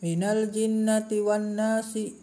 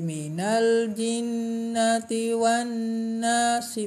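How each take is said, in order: First: It is read fast with a very brief nasal hum. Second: It is read fast with a two-count nasal hum. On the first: The nasal sound is not given its full value. The speaker calls it wrong. "ketika membaca cepat maka akan seperti ini" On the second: Even at speed, the nasal sound keeps its full value. The speaker calls it right. "ketika membaca cepat menjadi ... menjadi dua harokat"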